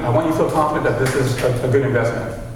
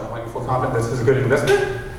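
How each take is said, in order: First: It is said as a plain statement. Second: It is said with a questioning tune. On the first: "This is me talking with a, a statement"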